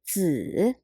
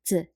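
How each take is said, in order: First: It is said with a full, distinct tone. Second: It is said with a light, neutral tone. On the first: "The first pronunciation is 子" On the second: "It's a neutral, light tone"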